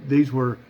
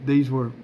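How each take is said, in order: No difference in how they are said.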